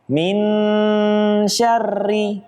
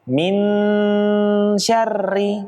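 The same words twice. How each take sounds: First: The n is pronounced fully and clearly. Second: The n is pronounced fully and clearly.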